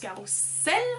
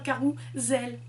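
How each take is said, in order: First: The middle consonant is a hissing S sound. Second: The middle consonant is a buzzing Z sound. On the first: This is the common belief about the word. The speaker calls it wrong. "l'idée reçue c'est que ça se prononce carrousel" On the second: This follows the spelling rule. The speaker calls it right. "entre deux voyelles, on se dit Z. Du coup, c'est un carrousel"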